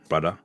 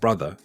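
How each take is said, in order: First: The final 'er' sound is dropped. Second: The final 'er' sound is fully pronounced. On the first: "you'll hear" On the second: "instead of"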